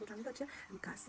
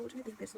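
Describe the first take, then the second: First: Whispered. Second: Said in the usual way. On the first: Shown as a demonstration. Repeats the phrase, then whispers it.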